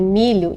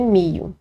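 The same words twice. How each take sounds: First: Said in the usual way. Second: "mio" sem o som de LH; pronúncia coloquial. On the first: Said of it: "Para dizer em milho, dizem mio". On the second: Shown as a demonstration. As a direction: diga "mio", com I no lugar do LH. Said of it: "dizem mio". ("mio", fala popular com o LH vocalizado)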